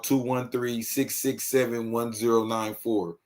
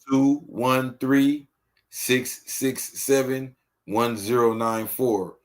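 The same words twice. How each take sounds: First: The number is said at normal speed. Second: The number is said slowly.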